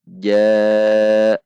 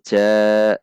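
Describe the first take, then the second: First: The j sound is made mid-palate. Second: The j sound is not made mid-palate. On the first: The speaker calls it right. "namun ja, yaitu di tengah lidah dengan langit-langit atas bagian tengah" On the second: The speaker calls it wrong. "bukan ja"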